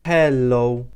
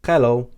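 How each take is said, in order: First: HELLO drawn out very slowly, syllable by syllable; slow demonstration. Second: HELLO said the Maltese way, short pure o, crisp and louder. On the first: Teacher repeats the greeting for learners, slowly stretched hello. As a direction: stretch hel-lo out for learners, loud and clear. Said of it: "That's hello". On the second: Teacher models the most used greeting, Maltese-accented hello. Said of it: "that is quite simply". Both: Shown as a demonstration.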